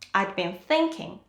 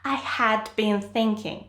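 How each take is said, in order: First: Had is shortened to 'd, stress on thinking. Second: The word had is said in full. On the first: The speaker calls it right. "shorten had to d, I'd. Then stress the main verb" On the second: The speaker calls it wrong.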